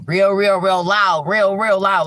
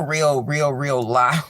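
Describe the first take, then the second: First: Louder emphasis. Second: Said in the usual way. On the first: Shown as a demonstration. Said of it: "like a loud scream".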